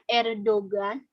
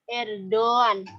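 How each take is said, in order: First: A g sound is pronounced in the middle. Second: No g sound; the vowel before is lengthened. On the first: The speaker calls it wrong. "bukan Erdogan" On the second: The speaker calls it right. "tidak dibaca ... memanjangkan huruf sebelumnya"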